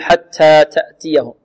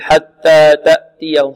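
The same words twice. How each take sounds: First: The t sounds are overly breathy, like s. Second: The t sounds have no breathiness. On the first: "أو نبالغ في الهمس نقول حتى تأتيهم" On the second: "بعض الطلاب يقول حتى تأتيهم خطأ"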